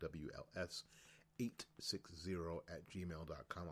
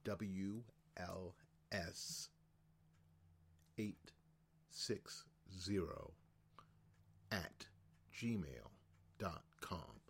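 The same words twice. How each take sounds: First: It is said at a normal, quicker pace. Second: It is said slowly and deliberately.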